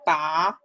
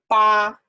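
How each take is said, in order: First: The syllable has a rising tone. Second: The syllable has a high level tone. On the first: "If it's second tone, rising tone" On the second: "If if it's first tone"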